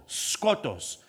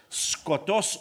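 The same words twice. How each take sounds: First: Skotos with the accent on the first syllable, SKOtos; stress on first syllable. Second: Skotos with the accent on the last syllable, skoTOS; stress on final syllable. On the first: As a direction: lean on the "sko-" of skotos. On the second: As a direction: lean on the "-tos" of skotos. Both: Shown as a demonstration. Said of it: "depends on where you put the accent".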